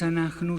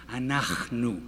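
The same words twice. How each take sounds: First: "anachnu" with a hard k instead of the throaty ch; the rejected version of "anachnu"; wrong take. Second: "anachnu" with a throaty ch, slow and clear; the correct "anachnu" modelled for students; right take. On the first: Teacher showing the wrong "anachnu" to the class. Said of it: "No es anachnu". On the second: Teacher modelling the right "anachnu" for the class. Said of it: "sino anachnu". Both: Shown as a demonstration.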